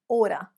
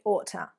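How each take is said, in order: First: The middle consonant is a soft D sound. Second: The middle consonant is a clear T sound. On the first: "American, Australian might use order. Again, reducing that T down to a D sound" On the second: "I would say ought to"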